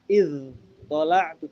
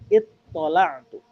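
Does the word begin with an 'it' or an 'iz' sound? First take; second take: iz; it. First: The word begins with an 'iz' sound. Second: The word begins with an 'it' sound. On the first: The speaker calls it wrong. "bukan iz tola'tu" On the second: The speaker calls it right. "tapi it tola'tu"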